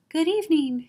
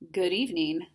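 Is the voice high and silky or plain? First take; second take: high, silky; plain. First: It is said in a high, silky voice. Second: It is said in a plain, ordinary voice.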